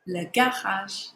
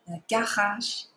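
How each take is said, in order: First: Le garage with the R rasped in the throat; slow Le garage, French throat R; throaty French R. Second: Le garage again with a clear throat R; throaty R repeat. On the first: Teacher models the French throat R in garage. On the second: Teacher repeats garage to drill the French R. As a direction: exaggerate the R in Le garage. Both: Shown as a demonstration. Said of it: "our letter R's are always in our throat".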